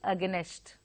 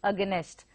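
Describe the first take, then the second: No difference in how they are said.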